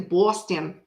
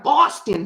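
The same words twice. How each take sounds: First: Boston said lower with a rounded "aw" vowel; imitated Boston accent. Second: Said in the usual way. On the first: Shown as a demonstration. Greeting a Boston viewer by town, imitated Boston accent. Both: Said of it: "I love their accent".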